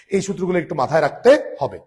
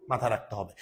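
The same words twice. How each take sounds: First: এই সূত্রগুলো said louder, with a strong stress on এই; teacher stressing এই, louder and firmer; emphatic reminder. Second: Said in the usual way. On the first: Shown as a demonstration. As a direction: firmly stress এই and drive the point home.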